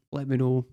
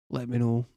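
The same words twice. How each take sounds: The two takes are said the same way.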